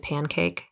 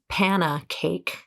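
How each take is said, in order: First: The word is said with two syllables. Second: The word is said with three syllables. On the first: The speaker calls it right. "as opposed to pancake" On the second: The speaker calls it wrong. "I thought that the word was panna cake"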